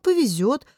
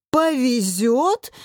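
First: Said in the usual way. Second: Slow, rising indignant echo; outraged roar. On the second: A narrator's reading. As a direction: draw the word out in disbelieving fury. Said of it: "взревел Илья". (возмущённо взревев, растягивая слово)

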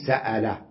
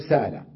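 First: سألة with a clear glottal stop; hamza pronounced. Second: سالة said as saala with a long a; no glottal stop in سالة; softened hamza. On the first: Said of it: "يهمز يقول سألة". (نطق سألة بتحقيق الهمزة) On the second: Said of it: "يقول سالة". (نطق سالة بتسهيل الهمزة) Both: Shown as a demonstration.

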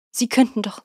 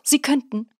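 First: 'könnten' pressed, higher and louder, falling at the end; indignant insistence. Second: Climbing indignant insistence. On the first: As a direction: insist the ants really could. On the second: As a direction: repeat 'könnten' even higher, pleading and outraged. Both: A narrator's reading. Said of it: "seine Empörung auszudrücken".

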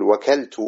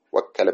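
First: وكلت with a light, undoubled k, "wakaltu"; unstressed single kaf. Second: وكل with a held double k, "wakkala"; doubled kaf. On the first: Teacher showing the light verb form, وكلت with single k. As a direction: keep the kaf short in وكلت. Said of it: "هكذا مخففا". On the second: Teacher showing the intensive verb form, وكل with doubled k. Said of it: "بالتشديد". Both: Shown as a demonstration.

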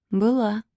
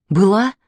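First: Soft, short falling statement; reluctant answer. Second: "Была" with a rising questioning end; "Была" drawn upward, wanting to know; eager echo question. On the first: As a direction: admit it quietly. Terse answer, then echoed as question. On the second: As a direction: ask "Была?" with the last syllable lifted. Kostya echoes the answer as question. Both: A narrator's reading.

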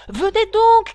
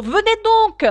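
First: Loud high urgent call; shouting. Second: Loud high urgent call on the run; shouting while running. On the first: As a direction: hurry her along with a shout. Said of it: "cria le griffon". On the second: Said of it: "en courant de plus belle". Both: Acted.

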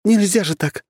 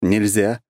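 First: High, flustered protest; protest, flustered and huffy; indignant huff. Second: Calm agreeing nod; agree, relaxed and easy; agreeing calmly. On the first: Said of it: "пропыхтела Анастасия". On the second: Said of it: "согласно кивнул я". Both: Acted.

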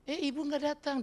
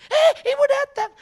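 First: Office worker imitation. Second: Very high, very loud imitated cry of alarm; mock alarm. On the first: Staff noting the boss is absent, high put-on voice. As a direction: play a clerk passing on office news, pitched up. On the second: Staff warning that the boss arrived, shouted mock alarm. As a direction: shriek a warning to the office, hammed up.

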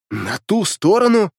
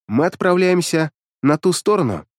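First: Slow, higher stunned question. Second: Said in the usual way. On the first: A narrator's reading. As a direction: echo it in disbelief. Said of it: "ошарашенно произнёс я".

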